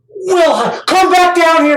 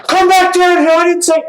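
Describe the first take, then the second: First: Mock calling. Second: Put-on high, louder playful call to a kid tossed in the air; mock calling out. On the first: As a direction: call the kid down like a playful dad. Calling a tossed kid back. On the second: A dad playfully calls his tossed child back down, high and loud.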